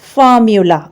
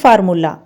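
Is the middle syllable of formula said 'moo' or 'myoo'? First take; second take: myoo; moo. First: The middle syllable has a 'myoo' sound. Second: The middle syllable is a plain 'moo' sound. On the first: The speaker calls it right. "ये इसकी प्रोनाउंसिएशन है" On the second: The speaker calls it wrong. "जी बिल्कुल मैंने गलत pronounce किया है"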